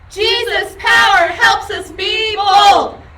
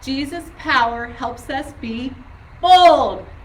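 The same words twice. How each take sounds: First: It is yelled very loudly. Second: It is said at normal volume.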